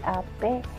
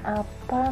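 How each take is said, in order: First: The word ends with an e vowel. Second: The word ends with an a vowel.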